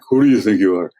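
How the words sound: It is said as an accusing attack.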